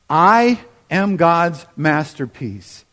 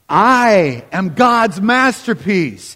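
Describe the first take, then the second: First: It is read in a calm, plain voice. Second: It is read with loud, lively energy.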